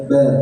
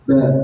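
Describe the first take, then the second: First: The syllable is said with air through the nose. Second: The same.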